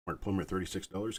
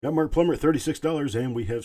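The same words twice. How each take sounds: First: Said in the usual way. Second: Loud, high call of the winning bid; excited sale call. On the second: Real, not acted. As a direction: belt out the sold price like a hammer drop. Auctioneer calling the winning sale.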